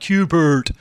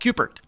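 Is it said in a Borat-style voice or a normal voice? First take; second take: Borat-style; normal. First: It is said in a Borat-style put-on voice. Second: It is said in a normal voice.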